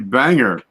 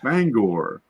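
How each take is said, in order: First: The second syllable sounds like 'ger'. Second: The second syllable sounds like 'gore'. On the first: This is how other people say it. "They say banger" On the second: This is how the speaker says it. "Like bang, gore"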